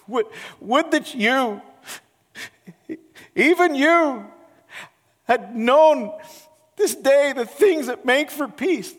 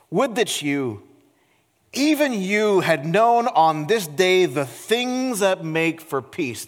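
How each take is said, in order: First: It is said in a broken, weeping voice. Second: It is said in a normal, steady voice.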